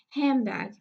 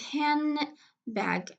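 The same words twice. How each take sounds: First: The d is dropped and n becomes m. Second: The d is dropped, leaving an n before bag. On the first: "the ne will be changed into me ... the result will be" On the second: "the middle de has been elided. So now we have handbag"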